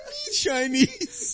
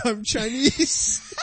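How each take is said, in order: First: Slow, drawn-out "Me Chinese" with a rising end; mock broken English. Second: Slow, drawn-out announcement; announcing. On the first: Friend mimicking the prankster's intro, slow and drawn out. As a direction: lightly imitate the guy's broken English. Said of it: "He says". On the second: Retold or imitated. Friend retelling the joke, slow mock announcement. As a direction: announce it like an introduction. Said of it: "he announces".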